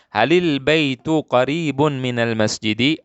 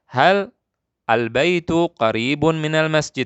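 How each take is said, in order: First: The first two words are joined without pause. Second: There is a pause after the first word.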